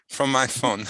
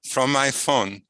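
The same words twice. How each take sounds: The two takes are said the same way.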